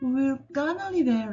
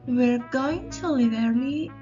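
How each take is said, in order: First: Going to is reduced to gonna. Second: Going to is said in full, carefully. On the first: The speech is everyday and casual. "in informal language or spoken every day" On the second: The speech is formal or written style. "in writing"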